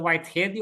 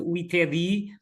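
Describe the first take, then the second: First: The name is said with an English accent. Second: The name is said with a Portuguese accent. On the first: "Vamos ler à inglesa" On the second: "à portuguesa"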